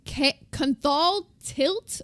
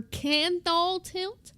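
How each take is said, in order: First: "Canthal" with a short uh vowel, KUN-thal, slow and halting; uncertain pronunciation. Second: "Canthal" with an open a as in cat, KAN-thal, slow; alternative pronunciation. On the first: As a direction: try "Canthal tilt" as kun-thal, feeling it out slowly. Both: Shown as a demonstration. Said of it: "or Canthal tilt".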